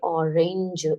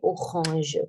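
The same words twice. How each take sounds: First: The word is pronounced with English sounds. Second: The word is pronounced with French sounds. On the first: "People say orange in English" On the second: "but in French we say orange"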